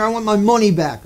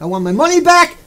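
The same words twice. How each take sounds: First: Said in the usual way. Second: Higher and louder, insistent; loud demand. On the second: Pretend. Audience member demanding a refund from lecturer, loud. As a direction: raise the voice to demand it. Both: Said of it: "say it nice and loud".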